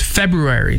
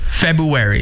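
First: It is said with an R after the B. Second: It is said with no R after the B. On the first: The speaker calls it right. "There's an R after the B, so it's February" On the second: The speaker calls it wrong. "He said it"

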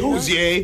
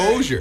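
First: The name is said with a French flavor. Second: The name is said with a Canadian flavor. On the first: "Like French" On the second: "some Canadian flavor with the Hosier, like hockey Hosier"

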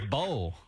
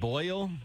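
First: The vowel sounds like the one in bowl. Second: The vowel sounds like the one in boy. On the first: The speaker calls it wrong. "She says bowl, like B-O-W-L" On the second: The speaker calls it right. "she cannot pronounce the word boil, B-O-I-L"

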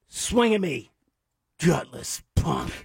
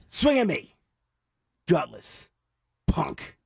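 First: Gutless and punk run together without a pause. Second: There is a pause between gutless and punk.

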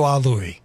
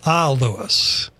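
First: The name ends without an s sound. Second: The name ends with an s sound. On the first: The speaker calls it wrong. "don't do Ah Louie" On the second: The speaker calls it right. "a good way to remember it"

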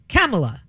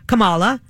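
First: The name sounds like Pamela with a K. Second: The name does not sound like Pamela. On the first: This is the newer pronunciation of the name. "like Pamela with a K" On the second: This is the older pronunciation of the name. "It used to be"

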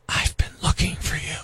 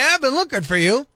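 First: It is spoken in a whisper. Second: It is spoken in a normal voice. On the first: It sounds creepy. "a little creepy, right?" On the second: It sounds harmless. "that sounds okay"

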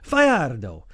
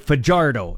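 First: The name is pronounced in a Spanish way. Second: The name is pronounced in an English way. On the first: This is how the name's owner says it. The speaker calls it right. "He said" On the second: This is how locals commonly say it. The speaker calls it wrong. "let them butcher it and say Fajardo, as we would here in the Hick Prairies"

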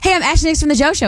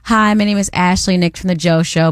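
First: It is said very fast. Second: It is said at normal speed.

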